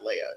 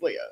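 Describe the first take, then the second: First: The name sounds like the Star Wars princess. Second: The name sounds unlike the Star Wars princess. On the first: This is how others wrongly say the name. The speaker calls it wrong. "I'm not Leia" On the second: This is the name's true pronunciation. The speaker calls it right. "It's Leia"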